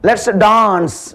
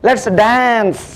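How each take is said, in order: First: It is said in a British accent. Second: It is said in an American accent. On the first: "British" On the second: "American ஸ்டைலாக சொல்லுவாங்க"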